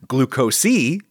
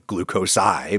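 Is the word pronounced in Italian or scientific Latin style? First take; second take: Italian; Latin. First: The word is pronounced in modern Italian style. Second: The word is pronounced in scientific Latin style. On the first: The speaker calls it right. "if I give it modern Italian pronunciation" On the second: The speaker calls it wrong. "doesn't sound right if given scientific Latin pronunciation"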